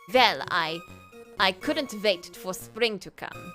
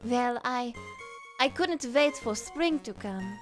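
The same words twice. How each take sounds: First: It is said in a stern German-ish voice. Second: It is said in a softer, less stern voice.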